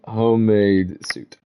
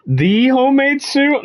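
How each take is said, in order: First: Said in the usual way. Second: Incredulous question. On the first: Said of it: "one of the homemade suits". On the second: Real, not acted. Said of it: "I think you'll find it's one of the homemade suits".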